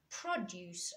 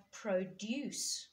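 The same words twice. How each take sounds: First: Produce as the noun, PRO-duce; stress on first syllable. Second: Produce as the verb, pro-DUCE; stress on second syllable. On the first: Teacher explaining fruit and vegetables, produce stressed on its first syllable. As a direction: hit the opening syllable of produce. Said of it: "referring to fruits and vegetables". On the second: Teacher explaining the verb, produce stressed on its second syllable. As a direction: slowly lean on the last syllable of produce. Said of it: "I am making it". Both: Shown as a demonstration.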